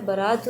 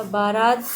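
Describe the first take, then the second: First: "बारात" with short first vowel, as ba-raat; correct form demonstrated. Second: "बारात" with long first aa; wrong form demonstrated. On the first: Teacher giving right spelling, "बारात" pronounced ba-raat. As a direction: say "बारात" as baraat. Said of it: "होता है". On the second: Teacher rejecting misspelling, "बारात" with stretched first vowel. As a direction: say "बारात" as baa-raat. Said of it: "नहीं होता है". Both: Shown as a demonstration.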